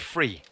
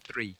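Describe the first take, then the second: First: The word starts with an f sound. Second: The word starts with a th sound. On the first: The speaker calls it wrong. "They'll say free" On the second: The speaker calls it right. "They don't say th, right? They don't say three"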